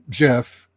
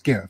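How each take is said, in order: First: The G is soft, like a J. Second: The G is hard, like in go. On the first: The speaker calls it wrong. "It's not pronounced GIF" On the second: The speaker calls it right. "it's pronounced GIF"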